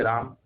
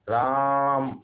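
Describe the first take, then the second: First: Said in the usual way. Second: Calling out. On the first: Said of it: "हम लोग कहते हैं राम". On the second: Shown as a demonstration. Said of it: "जोर से बोलते हैं, किसी को बुलाते हैं".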